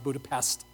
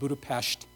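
First: The last syllable ends in an s sound. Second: The last syllable ends in an sh sound. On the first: The speaker calls it wrong. "not Budapest" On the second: The speaker calls it right. "that's how you say it"

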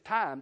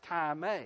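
First: It is said like the English word time. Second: It is said with the Greek pronunciation. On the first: The speaker calls it wrong. "we would pronounce it in English time" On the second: The speaker calls it right. "but it's pronounced time"

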